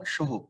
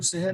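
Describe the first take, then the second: First: ਸਹੁ said with a short u ending, sahu; ਸਹੁ pronounced properly, ending in u; ਸਹੁ ਦਾ ਸ਼ੁੱਧ ਉਚਾਰਣ; correct reading shown. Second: ਸਹਿ read with a short i ending, sehi; ਸਹਿ said as the mistaken sahi; ਸਹਿ ਨਹੀਂ ਪੜਨਾ ਵਾਲਾ ਗਲਤ ਉਚਾਰਣ; wrong reading shown. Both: Shown as a demonstration. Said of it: "ਇਹਨੂੰ ਸਹਿ ਨਹੀਂ ਪੜਨਾ".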